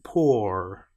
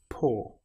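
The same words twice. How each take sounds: First: It ends with a pronounced r sound. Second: It ends on the vowel, with no r. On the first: The speaker calls it wrong. "I don't finish this with pour" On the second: The speaker calls it right. "just pour"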